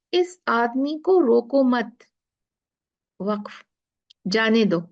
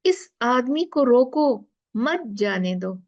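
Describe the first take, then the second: First: "रोको मत" as one phrase, stop, then "जाने दो"; pause after मत. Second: "इस आदमी को रोको", stop, then "मत जाने दो"; pause after रोको. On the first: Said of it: "एक पहला देखते हैं". ("मत" के बाद वक्फ़, फिर "जाने दो") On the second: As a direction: slowly, break after "रोको" and join "मत" to "जाने दो". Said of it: "दूसरे में हम कहते हैं". ("रोको" के बाद वक्फ़, फिर "मत जाने दो") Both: Shown as a demonstration.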